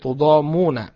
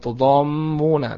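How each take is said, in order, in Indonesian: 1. Bunyi m pendek dan tunggal. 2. Bunyi m ditahan panjang dan digandakan. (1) "mimnya di takhfif, tidak ditasydid" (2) "Bukan tudhamuna"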